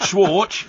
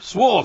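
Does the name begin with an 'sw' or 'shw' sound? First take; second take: shw; sw. First: The name begins with a 'shw' sound. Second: The name begins with a plain 'sw' sound. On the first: The speaker calls it wrong. "not Schwartz" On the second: The speaker calls it right. "Swart, not Schwartz"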